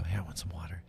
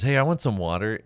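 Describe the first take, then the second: First: Put-on a softer retelling of the kid's ask; mild quieter retelling. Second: Calls out loud and clear; loud kid request. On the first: Boy asks mom for water in the hushed theater. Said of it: "you hear Fleety go". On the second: Retold or imitated. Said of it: "Fleety looks over at you and he goes".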